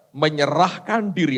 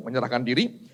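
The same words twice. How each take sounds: First: "Menyerahkan diri" drawn out slowly; emphasised key phrase. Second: Said in the usual way. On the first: Real, not acted. Preacher underlining a key phrase for the congregation, slow emphasis. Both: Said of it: "Anda garis bawahi itu".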